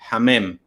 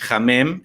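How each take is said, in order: First: The word starts with a soft, breathy h. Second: The word starts with a harsh, j-like h. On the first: The speaker calls it right. "Es un sonido suave" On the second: The speaker calls it wrong. "ni la H que suena casi como J"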